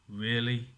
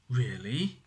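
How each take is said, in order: First: It sounds disapproving. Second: It sounds surprised. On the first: The action seems silly or unwelcome. "we disapprove of, or we think is a little bit silly" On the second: The news is unexpected. "Now that's a surprise"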